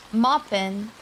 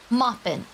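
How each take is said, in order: First: Moppin' said MOP-pin, no final g, the tune rising at the end; child's way of saying it, rising. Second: Moppin' said as two syllables, MOP-pin, with the final g dropped and a falling tune; child's way of saying it. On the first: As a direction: repeat the toddler's Moppin' as if asking, tune going up. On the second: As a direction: mimic the toddler saying Moppin' flatly, tune falling at the end. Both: Retold or imitated. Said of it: "That's how she said it".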